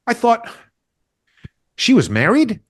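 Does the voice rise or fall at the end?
rise. The voice rises at the end, like a question.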